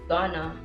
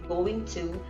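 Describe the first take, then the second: First: The phrase is shortened with sounds dropped. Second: The phrase is said with every sound. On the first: The speaker calls it wrong. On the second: The speaker calls it right.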